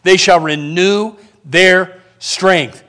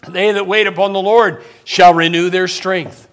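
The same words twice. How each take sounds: First: Slow, low, with RENEW, THEIR and STRENGTH set apart; slow emphatic repeat. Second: Said in the usual way. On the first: Acted. Preacher repeating the verse to the church, slow and emphatic. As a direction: weigh each word of "renew their strength".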